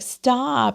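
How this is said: It is said in a weak, whiny voice. The person sounds like a victim. The speaker calls it wrong. "that sounds so whiny. And it sounds like a victim"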